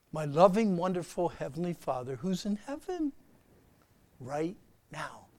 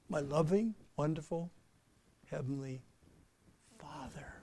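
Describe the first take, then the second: First: Slow loving prayer. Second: Soft, unhurried, fading to a hush; slow calm prayer. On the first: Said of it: "slow down and talk to him". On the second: Preacher showing the church how to pray slowly, soft and calm. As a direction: breathe out and savour each word. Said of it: "take a breath, slow down, concentrate". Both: Shown as a demonstration.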